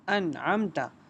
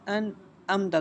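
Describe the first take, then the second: First: The middle consonant is a deep throat sound. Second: The middle consonant is a plain glottal stop. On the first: The speaker calls it right. "हमने पढ़ना है अनअमता आइन" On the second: The speaker calls it wrong. "लोग पढ़ते हैं लेकिन वो गलत है, इसको हमने हमज़ा नहीं बनाना"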